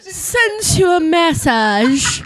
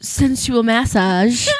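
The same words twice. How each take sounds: First: "Sensual massage" stretched very slowly, high and loud; hammed-up relish. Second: "sensual massage" drawn out slowly and louder; savored words. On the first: Co-host asked for "Sensual massage", hammed-up relish. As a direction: draw out "Sensual massage" as far as it goes. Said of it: "I want you to say sensual massage". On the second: Host loves saying "sensual massage", savored slowly. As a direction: relish "sensual massage", stretching each word. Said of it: "I love saying sens". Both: Shown as a demonstration.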